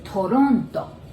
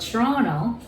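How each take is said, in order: First: The R sounds close to an L. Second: The R is an English R sound.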